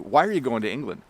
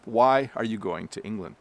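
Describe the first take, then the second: First: It is said quickly and compressed. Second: It is said slowly and carefully.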